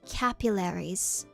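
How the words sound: It is said in an American accent. "in American English it's pronounced capillaries"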